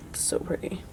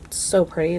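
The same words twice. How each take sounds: First: Much softer, unvoiced admiring whisper; awed whisper. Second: Said in the usual way. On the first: Real, not acted. Admiring the gorgeous swatch to viewers, whispered. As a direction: breathe it out in awe.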